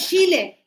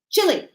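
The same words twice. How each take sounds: First: The first vowel is drawn out long. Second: The first vowel is kept short. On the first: The speaker calls it wrong. "not Chile" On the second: The speaker calls it right.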